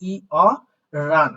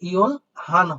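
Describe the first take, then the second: First: The h is dropped, giving an r sound. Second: The h is kept as a separate sound. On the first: The speaker calls it right. "এটার উচ্চারণ হবে ই অ রান" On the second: The speaker calls it wrong. "সাধারণত ইওল হান হয়, বাট এটা সঠিক উচ্চারণ না"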